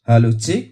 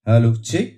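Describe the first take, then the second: The two takes are said the same way.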